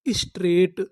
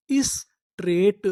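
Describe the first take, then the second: First: Said in the usual way. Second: Drawn out slowly; slow drawn word. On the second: Shown as a demonstration. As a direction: stretch straight slowly for learners. (धीरे खींचकर बोलना) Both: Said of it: "तो इतनी meaning क्या बनी?".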